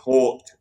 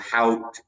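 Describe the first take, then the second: First: The word rhymes with short. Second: The word rhymes with out. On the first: "We don't want to pronounce it Hort" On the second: "or Hout"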